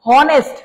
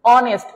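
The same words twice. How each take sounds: First: হনেস্ট with the H sounded, "honest" as "hawnest"; wrong pronunciation. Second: অনেস্ট with silent H, starting on the vowel; correct pronunciation. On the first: Teacher showing what we don't say, H-sounded হনেস্ট. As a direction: sound a strong initial H in হনেস্ট. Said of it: "আসলে কি হনেস্ট বলি আমরা". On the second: Teacher showing what we really say, vowel-first অনেস্ট. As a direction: open অনেস্ট straight on "aw", no H. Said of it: "কি বলি?". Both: Shown as a demonstration.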